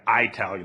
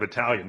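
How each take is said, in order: First: It is said in a casual, everyday way. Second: It is said in the standard way.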